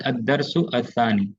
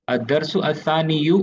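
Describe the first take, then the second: First: Said in the usual way. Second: अस्सानी यू with an added "yu" at the end; full dammah ending. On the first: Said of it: "ये होना चाहिए था लेकिन". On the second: Shown as a demonstration. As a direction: sound out the final vowel in अस्सानी यू, rising. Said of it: "ये होना चाहिए था". (अस्सानी यू के अंत में दम्मा बोलकर)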